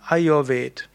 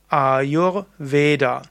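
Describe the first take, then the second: First: The word ends on a consonant, no final vowel. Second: The word ends with a final vowel sound. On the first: This is how it is said in Hindi. "die Hindi-Aussprache wäre eben Ayurved" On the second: This is the correct Sanskrit pronunciation. "wenn du dort das Sanskrit korrekt sagen willst, wäre es Ayurveda"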